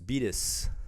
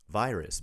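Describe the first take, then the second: First: It is said with a Japanese katakana accent. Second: It is said with a natural English accent. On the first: The speaker calls it wrong. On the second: The speaker calls it right.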